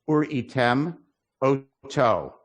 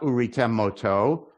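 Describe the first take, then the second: First: There is a slight break between the words. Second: The two words run together without a break. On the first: The speaker calls it right. "you got to pause so you hear that aleph" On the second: The speaker calls it wrong.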